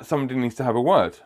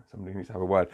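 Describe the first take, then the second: First: Said in the usual way. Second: Lower, much softer repeat; hushed repeat of someone else's message; muted echo. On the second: Retold or imitated. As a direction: echo it under your breath, dropping low. Echoing the message to himself.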